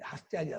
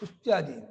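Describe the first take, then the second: First: The first vowel is open, like a full a. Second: The first vowel is closed, like a short u. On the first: The speaker calls it wrong. "ಹಾ ಅಂತ ಓದ್ಬಾರ್ದು" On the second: The speaker calls it right. "ಹೂ ಹೂ ಅಂತ ಓದ್ಬೇಕು"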